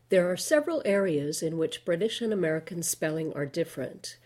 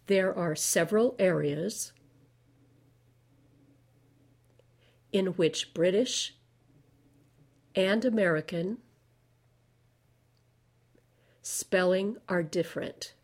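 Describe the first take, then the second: First: It is read at a normal, regular speed. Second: It is read slowly, word by word. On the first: "The first time I'll read it at regular speed" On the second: "Now I'll read things slowly"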